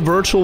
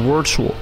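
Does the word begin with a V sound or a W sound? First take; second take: V; W. First: The word begins with a V sound. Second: The word begins with a W sound. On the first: "I had to say Virtual with a V" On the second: "you can say Virtual with a Virtual if you want"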